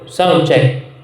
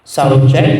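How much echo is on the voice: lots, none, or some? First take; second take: none; lots. First: The voice has no echo at all. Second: The voice has a lot of echo. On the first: "parang pangperya. So, wala na talaga siyang ano, uh, echo" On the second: "Merong pop"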